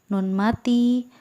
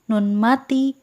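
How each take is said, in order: The two takes are said the same way.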